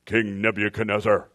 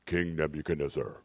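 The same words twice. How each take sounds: First: Louder booming voice from heaven; heavenly voice. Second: Low, solemn voice from heaven; heavenly voice. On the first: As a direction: boom the name down from the sky. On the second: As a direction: call his name like a voice from the sky. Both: Shown as a demonstration. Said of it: "That's my heavenly voice".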